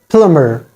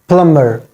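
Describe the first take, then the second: No difference in how they are said.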